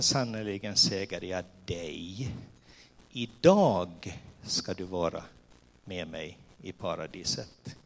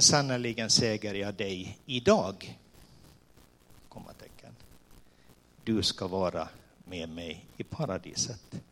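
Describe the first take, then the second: First: The pause falls before the word 'idag'. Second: The pause falls after the word 'idag'. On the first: The promise is about being in paradise that same day. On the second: Only the saying happens today; the time of paradise is unknown.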